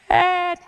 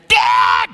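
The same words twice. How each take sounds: First: It is said quietly, barely audible. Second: It is screamed loudly in terror.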